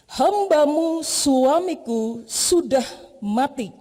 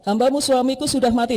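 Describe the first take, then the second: First: Each word is given its own emphasis. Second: It is read evenly without special emphasis. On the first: "ketika kita beri penekanan di setiap kata" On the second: "Dia bisa membaca begini"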